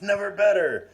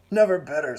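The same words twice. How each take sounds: First: Much higher, louder exultant repeat; rising jolly cry. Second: Higher, louder hearty cry; jolly exclamation. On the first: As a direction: top the first one, giddy and booming. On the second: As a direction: boom it out, delighted with himself. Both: A narrator's reading. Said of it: "He laughed something shocking".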